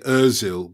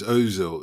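First: The first vowel is a front rounded ö sound. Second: The first vowel is a plain back o sound. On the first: The name is said the Swedish way. "I'm an African Viking from Sweden, and O with two dots above it is for us" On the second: The name is said the way a colleague says it. "Miguel says Ozil"

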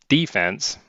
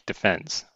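First: It is said the American way. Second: It is said the British way.

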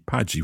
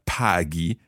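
First: The G is a soft j sound. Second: The G is a hard g sound. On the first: The speaker calls it wrong. "otherwise it would be Paghi, which doesn't really exist" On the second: The speaker calls it right. "the H is keeping the G hard there too"

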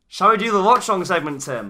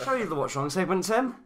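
First: It is said with lively, high energy. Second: It is said with flat, low energy.

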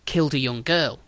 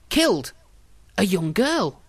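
First: The words run on without a pause. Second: There is a pause after the word killed. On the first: The writer admits he killed a girl. "we're all reading it as" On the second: The writer notes that a girl was killed that day. "there's a little mark that you might think is a smudge, but it's actually a comma"

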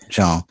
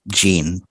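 First: The name is said with a French pronunciation. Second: The name is said with an American pronunciation. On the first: The speaker calls it wrong. "not Jean" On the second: The speaker calls it right. "I think Jean Seberg was American, so I think her name is Jean"

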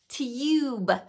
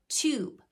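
First: The vowel is a 'yoo' sound. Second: The vowel is a plain 'oo' sound. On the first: The speaker calls it wrong. "They would try to make it that U sound because they thought long vowel U only sounded like U, its name" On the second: The speaker calls it right. "actually it can make the oo sound, like tube"

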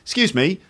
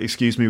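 First: It is said with a friendly, polite tune. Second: It is said with a less friendly, ruder tune. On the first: The attention-getting request comes across as polite. The speaker calls it right. "that's a friendly way of saying excuse me" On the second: The attention-getting request comes across as impolite. The speaker calls it wrong. "with a different intonation pattern"

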